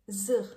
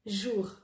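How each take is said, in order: First: The word begins with a plain z sound. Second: The word begins with a soft zh sound.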